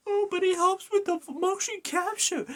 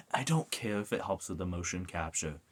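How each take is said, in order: First: Very high, silly mocking voice; mock objector. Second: Said in the usual way. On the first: Gamer mimicking fans defending a face change, high mocking voice. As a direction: parody the defenders in a squeaky high pitch.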